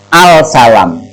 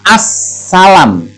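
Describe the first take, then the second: First: The L sound is pronounced before the S. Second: The L sound disappears into a doubled S. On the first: The reader does not know tajwid. The speaker calls it wrong. "Yang nggak biasa atau yang nggak ngerti tajwid maka akan membacanya al salam" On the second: The reader knows tajwid. The speaker calls it right. "Tapi bagi yang tahu maka akan dibaca as salam"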